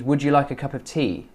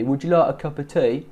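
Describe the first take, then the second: First: Said in the usual way. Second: Imitated Cockney, "like" towards "loike"; Cockney accent. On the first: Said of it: "I think she means". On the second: Coach imitating her going Cockney, Cockney accent. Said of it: "she's kind of going Cockney".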